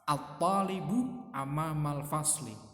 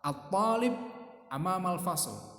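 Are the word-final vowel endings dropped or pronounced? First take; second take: pronounced; dropped. First: The final vowel endings are pronounced on the words. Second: The final vowel endings are dropped from the words.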